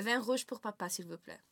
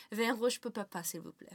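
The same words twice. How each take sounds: First: "Vin rouge pour papa, s'il vous plaît" repeated clearly; French repeated. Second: "Vin rouge pour papa" in French. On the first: Shown as a demonstration. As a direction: repeat carefully on request. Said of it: "One more time?". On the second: Retold or imitated. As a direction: say it like a child learning French. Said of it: "first sentence my dad taught me".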